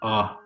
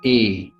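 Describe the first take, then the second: First: The vowel is said the French way. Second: The vowel is said the English way. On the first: "In French is a" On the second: "In English is A"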